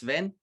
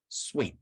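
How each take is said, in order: First: The second sound is a clear v. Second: The second sound is a w. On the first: The speaker calls it right. "it's literally pronounced like seven, the number, um, without the first E" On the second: The speaker calls it wrong. "what I don't like is when people call me Swen"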